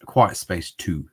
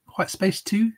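First: Said in the usual way. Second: Quiet Space Two? asked with a high rising end on Two; unsure question. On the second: Shown as a demonstration. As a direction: query the title, lifting Two up high. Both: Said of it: "Is that right?".

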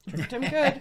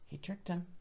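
First: Laughing emphasis on good; gleeful over the trick, laughing; amused. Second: Said in the usual way. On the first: Real, not acted. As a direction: chuckle through it.

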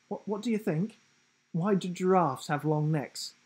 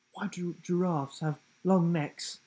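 First: Higher, teasing giraffe voice; a cheeky riddling giraffe. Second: Playful higher giraffe voice; a lightly voiced cheeky giraffe. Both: A narrator's reading.

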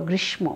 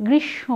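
First: গ্রীষ্ম with the ম fully sounded, as grish-mo; mispronounced. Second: গ্রীষ্ম as grish-sho, slightly nasal, no m; correct pronunciation. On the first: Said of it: "এই উচ্চারণটিও তোমরা ভুল করো". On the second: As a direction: drop the m in গ্রীষ্ম and double the sh. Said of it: "সঠিক উচ্চারণ". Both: Shown as a demonstration.

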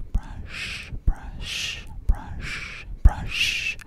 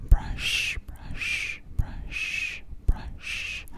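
The two takes are said the same way.

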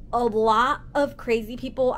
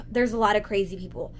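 First: Emphatic restatement, weight on LOT; stress on LOT. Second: Said in the usual way. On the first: Real, not acted. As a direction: lean hard on the word "lot". Repeats it for emphasis.

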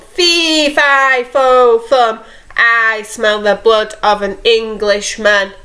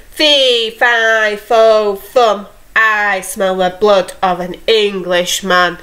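First: Giant calling out. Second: Giant bellowing. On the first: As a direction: call after the thief as a lightly voiced giant. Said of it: "The giant woke up and called". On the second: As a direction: boom it out like a big giant, but keep it light. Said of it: "he bellowed". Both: Acted.

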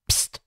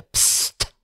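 First: Short sharp hiss; hissed shush. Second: Barely breathed „psst“; whispered hiss. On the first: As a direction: hiss them silent. (scharf gezischtes „Psst“) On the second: (ganz tonlos gehauchtes „psst“) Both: A narrator's reading. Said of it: "zischte er".

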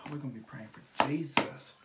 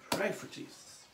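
First: Said in the usual way. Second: Mock prayer. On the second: Jokes about the makeup going badly.

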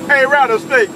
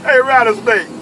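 No difference in how they are said.

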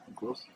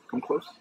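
First: Softer, coaxing come close; hushed. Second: Said in the usual way. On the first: Real, not acted. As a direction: draw the listener in quietly.

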